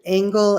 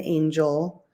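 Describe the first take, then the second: First: The name sounds like the word angle. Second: The name sounds like the word angel. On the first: The father's way of saying the family name. "I grew up with my father pronouncing our last name Angle" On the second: The mother's way of saying the family name. "my mother claimed the pronunciation angel, which is how it's spelled"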